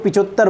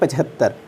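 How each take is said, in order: First: It uses the colloquial pronunciation of the word. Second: It uses the standard pronunciation of the word. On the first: The speaker calls it wrong. "इसको पिचहत्तर बोलते हैं" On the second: The speaker calls it right. "इसका सही रूप है पचहत्तर"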